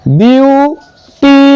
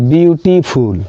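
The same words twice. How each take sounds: First: ब्यूटीफुल broken into byoo, tee, phool with long pauses; ब्यूटीफुल higher, very slow, in three pieces; three separate sounds. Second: Said in the usual way. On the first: Shown as a demonstration. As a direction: say each part of ब्यूटीफुल slowly, on its own. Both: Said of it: "तीन तरीके से निकल रहा है".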